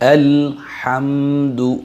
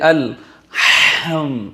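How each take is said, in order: First: The h sound is soft and breathy. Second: The h sound is pushed out very harshly. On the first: The speaker calls it right. "ভদ্রভাবে আদায় করব আমরা" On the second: The speaker calls it wrong. "একদম মানে মানে খুব শক্ত করে উচ্চারণ করছে"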